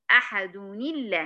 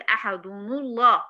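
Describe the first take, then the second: First: Slow "ahaduni-llah" for أحد الله; correct joined reading. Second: أحد الله as "ahadunu-llah"; wrong damma joining. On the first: Teacher repeating how to join verses, correct joined reading. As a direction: run أحد into الله on an "i" vowel. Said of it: "لما أجي أوصل أقول إيه". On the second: Teacher warning against this joining, wrong damma reading. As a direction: link أحد to الله with "-nu", u vowel. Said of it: "ما ينفعش أقول". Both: Shown as a demonstration.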